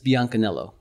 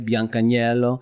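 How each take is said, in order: First: The name is said with an American accent. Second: The name is said with an Italian accent.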